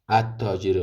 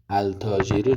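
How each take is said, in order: First: The l of the article is silent. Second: The l of the article is pronounced. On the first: The speaker calls it right. "بلکه چی میخوانی؟ التاجر. لامش نمی خوانی" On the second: The speaker calls it wrong. "التاجر نمی خوانی"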